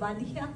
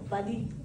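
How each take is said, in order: First: The final syllable is pronounced aloud. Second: The final syllable is left silent. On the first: The speaker calls it wrong. "au lieu de valia" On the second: The speaker calls it right. "le dernier syllabe, c'est muet"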